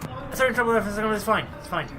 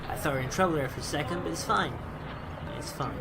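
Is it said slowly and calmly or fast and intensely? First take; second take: fast, intensely; slowly, calmly. First: It is said fast and intensely. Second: It is said slowly and calmly.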